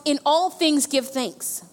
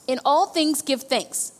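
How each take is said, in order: First: Slow, even dictation pace for notes. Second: Slow, steady repeat of the verse; slow dictation repeated. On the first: Pastor dictating the verse to the congregation, slow and even. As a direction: spell it out slowly for the notes. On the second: Pastor repeating the verse for note takers, slow. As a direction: say it again slowly so they can write it. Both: Shown as a demonstration. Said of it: "write in your notes".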